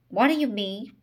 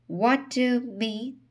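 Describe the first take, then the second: First: Said in the usual way. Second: Faltering, halting question; stammering. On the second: Acted. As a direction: stammer it out, higher. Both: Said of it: "he stammered".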